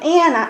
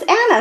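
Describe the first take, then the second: First: It is said with an American accent. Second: It is said with a Spanish accent.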